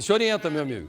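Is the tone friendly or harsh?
harsh. It is said in a harsh, fierce tone.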